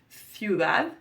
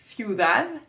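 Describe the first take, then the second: First: The word begins with a lisped th sound. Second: The same.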